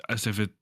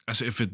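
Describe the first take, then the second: No difference in how they are said.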